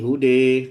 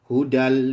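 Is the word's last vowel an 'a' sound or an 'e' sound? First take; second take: e sound; a sound. First: The last vowel is tilted toward an 'e' sound. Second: The last vowel is an open 'a' sound. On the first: The reciter stops after this word. "Kalau berhenti" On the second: The reciter joins this word to the next. "kalau sambung"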